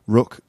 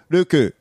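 First: The name ends on a consonant. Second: The name ends with an added vowel. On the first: "I used to get Rook a lot from Korean students" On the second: "That's the Japanese one"

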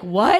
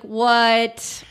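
First: It sounds genuinely shocked and concerned. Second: It sounds skeptical and dismissive, like Billy.

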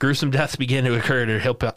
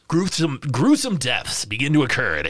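First: It is read in a plain, ordinary voice. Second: It is read in a put-on sexy voice.

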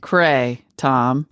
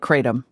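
First: The second syllable 'tom' is strongly emphasized. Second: The second syllable 'tom' is lightly emphasized. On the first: The speaker calls it wrong. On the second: The speaker calls it right.

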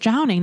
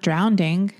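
First: The word is said without an extra d sound. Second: The word is said with an extra d sound. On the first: The speaker calls it right. "it's just drowning" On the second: The speaker calls it wrong. "not drowning. Why do you put the D?"

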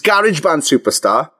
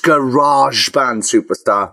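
First: Garage is said in a British way. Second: Garage is said in an American way. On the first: The speaker calls it right. "the British way" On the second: The speaker calls it wrong. "Or if we're American, it's Garage Band Superstar, which grinds my gears"

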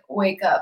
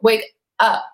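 First: It is said in a plain, calm way. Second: It is said loudly with strong emphasis. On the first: Someone is simply getting up in the morning. "it's not just like, wake up, like I'm waking up in the morning" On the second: It is an urgent call to become aware. "put the emphasis on that"

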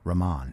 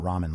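First: It does not sound like the noodle dish. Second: It sounds like the noodle dish ramen. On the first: The speaker calls it right. "I think that's probably right" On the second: The speaker calls it wrong. "It's not ramen like the noodle"

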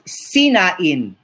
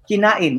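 First: The word begins with an s sound. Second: The word begins with a k sound. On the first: The speaker calls it wrong. "In Spanish, you pronounce this sinain" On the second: The speaker calls it right. "like kinain"

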